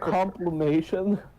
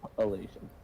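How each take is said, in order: First: The middle has an M sound, not a P. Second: The middle has a P sound, not an M. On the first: The speaker calls it wrong. "No, it's not complimation" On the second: The speaker calls it right. "There's a P"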